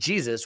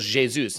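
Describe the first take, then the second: First: The name is given an English pronunciation. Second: The name is given a Portuguese pronunciation. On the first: The speaker calls it wrong. "his name isn't Jesus" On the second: The speaker calls it right. "that's probably the Portuguese pronunciation of Jesus"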